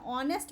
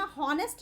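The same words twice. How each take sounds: First: ऑनेस्ट said with no h, starting straight on the vowel ऑ; silent h. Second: हॉनेस्ट said with a clear h sound at the start; wrong pronunciation with h. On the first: Teacher to students, showing the right way: ऑनेस्ट with a silent h. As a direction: say ऑनेस्ट as "on-est", the h left silent. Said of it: "ऑनेस्ट बोल रहे हैं". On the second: Teacher to students, showing the wrong way: हॉनेस्ट with a spoken h. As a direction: say हॉनेस्ट as "hon-est", breathing out an h first. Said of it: "हॉनेस्ट नहीं बोल रहे हैं". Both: Shown as a demonstration.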